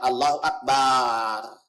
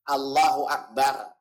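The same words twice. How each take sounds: First: The final syllable is drawn out long. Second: The final syllable is kept short. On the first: The speaker calls it wrong. "Kemudian barnya jangan panjang" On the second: The speaker calls it right. "Perhatikan lafaz takbirnya jangan sampai salah"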